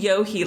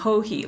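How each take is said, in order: First: The name starts with a Y sound. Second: The name starts with an H sound. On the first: The speaker calls it wrong. "I would say Yohi like Y" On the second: The speaker calls it right. "Ho-he like H"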